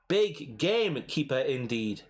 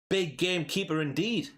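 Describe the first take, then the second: First: The phrase is said slowly. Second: The phrase is said quickly.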